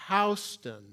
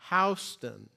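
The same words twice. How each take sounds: Both takes have the same delivery.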